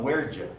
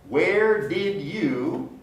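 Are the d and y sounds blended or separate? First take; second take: blended; separate. First: The d and y blend into a j sound. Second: The d and y are said as separate sounds. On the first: "there's blending of the did you into j" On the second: "Where did you become where'd you?"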